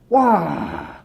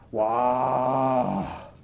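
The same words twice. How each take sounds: First: It sounds excited and delighted. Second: It sounds disbelieving, angry or disappointed.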